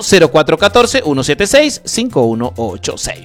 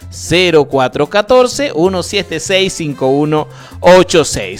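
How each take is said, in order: First: The number is said at normal, quicker speed. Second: The number is said more slowly.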